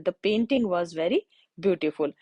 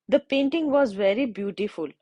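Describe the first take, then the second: First: Slow example repeated. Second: Slow example. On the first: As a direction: read again very slowly, "very" leaned on. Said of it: "the का use किया है". (दोबारा बहुत धीमे, "very" पर ज़ोर) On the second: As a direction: read very slowly, word by word. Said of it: "next अगर मैं बोलूँ". (बहुत धीमे उदाहरण वाक्य) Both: Shown as a demonstration.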